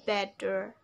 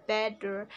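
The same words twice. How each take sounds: First: It is said with an American accent. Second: It is said with an American accent.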